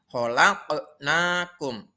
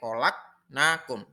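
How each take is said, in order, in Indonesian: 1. Bunyi q memiliki pantulan. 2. Bunyi q tidak memiliki pantulan. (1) "harus dipantulkan huruf qaf yang mati itu. ... Itu yang benar" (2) "Tidak boleh ... Salah. Harus pan pantul"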